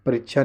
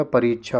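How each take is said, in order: First: परीक्षा said as "parichha"; wrong short i. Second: परीक्षा said as "pareechha"; correct long ee. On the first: Teacher rejects the spelling, short i in परीक्षा. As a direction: clip the i in परीक्षा. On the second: Teacher corrects the spelling, long ee in परीक्षा. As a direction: stretch the ee in परीक्षा. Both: Shown as a demonstration. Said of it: "परीक्षा नहीं होता".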